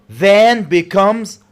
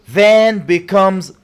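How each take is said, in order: No difference in how they are said.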